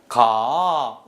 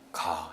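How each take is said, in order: First: It is said invitingly like a proposal. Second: It is said flatly as a plain statement. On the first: It invites someone to go together. "이렇게 얘기하면 청유입니다" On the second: It simply states a fact. "이렇게 읽으면은 이거는 평서형 문장입니다"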